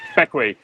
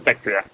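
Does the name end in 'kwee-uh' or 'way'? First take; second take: way; kwee-uh. First: The name ends with a 'way' sound. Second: The name ends with a 'kwee-uh' sound. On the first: The speaker calls it right. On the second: The speaker calls it wrong. "we kept calling it Beckwia"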